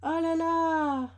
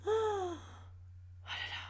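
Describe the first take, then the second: First: Drawn out, very slow, amazed; awed oh là là. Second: Very slow, much softer, nearly breathed; hushed awe. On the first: Admiring her rare card, a slow amazed exclamation. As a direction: stretch it out in wonder. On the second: Gazing at the shiny card, a hushed awed sigh. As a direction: let it melt away in quiet wonder. Admiring the secret rare card. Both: Real, not acted.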